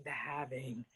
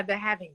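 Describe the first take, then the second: First: Deep, quiet movie trailer voice; spooky horror trailer voice. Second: Said in the usual way. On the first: Pretend. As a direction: say it like a scary film title. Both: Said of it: "Great horror movie by John Carpenter".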